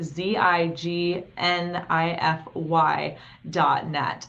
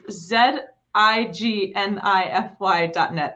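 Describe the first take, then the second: First: The letter Z is said 'zee', American style. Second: The letter Z is said 'zed', international style.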